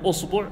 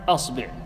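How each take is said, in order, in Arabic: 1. أول حركة هي u. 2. أول حركة هي a. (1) "تضم الهمزة" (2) "وتفتح الهمزة فتقول"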